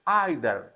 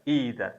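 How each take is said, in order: First: The word begins with an 'eye' sound. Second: The word begins with an 'ee' sound.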